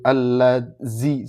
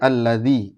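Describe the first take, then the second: First: The middle consonant is a plain z sound. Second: The middle consonant is a soft dh sound. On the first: The speaker calls it wrong. "repotnya kalau kalau ketemu dal ini kan jadi al allazi" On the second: The speaker calls it right. "Padahal harusnya alladzi"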